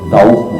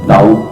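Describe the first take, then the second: The two takes are said the same way.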